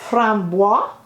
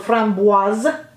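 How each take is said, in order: First: The word ends without a clear z sound. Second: The word ends with a clear z sound.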